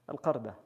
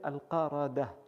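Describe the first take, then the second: First: No vowel is sounded between the R and D. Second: A vowel is sounded between the R and D. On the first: "Fatha sur Al-Qaf et Sukun sur Ra" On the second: "d'autres disent c'est al Qaradah"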